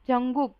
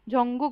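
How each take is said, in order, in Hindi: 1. दूसरा अक्षर नरम g ध्वनि से शुरू होता है। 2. दूसरा अक्षर नरम g ध्वनि से शुरू होता है।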